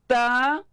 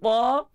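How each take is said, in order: First: The t is light, with thin unrounded quality. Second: The t is heavy, with thick emphatic quality.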